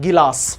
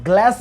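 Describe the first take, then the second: First: An extra vowel separates the g and l. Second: The g and l form one cluster. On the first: The speaker calls it wrong. "कई लोग इसे प्यार से बोलते हैं गिलास" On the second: The speaker calls it right. "आधा ग, मतलब आप इसे ग्लास बोले"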